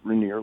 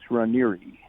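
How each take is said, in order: First: The name is said the common, everyday way. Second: The name is said with Italian pronunciation. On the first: "The most people pronounce it Rainier" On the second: "but the Italian pronunciation is Ranieri"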